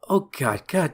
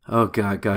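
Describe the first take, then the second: First: It is said at a higher pitch. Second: It is said at a lower pitch.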